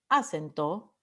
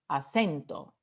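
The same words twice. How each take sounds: First: The stress is not on the middle syllable. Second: The stress is on the middle syllable. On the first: The speaker calls it wrong. "no decimos acento" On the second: The speaker calls it right. "Es la E ... decimos acento"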